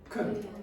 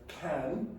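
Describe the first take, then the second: First: The word has a short, weak vowel. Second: The word has a full, open vowel. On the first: The speaker calls it right. "it's pronounced kun, kun, when you say it quickly" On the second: The speaker calls it wrong. "that word is not pronounced can"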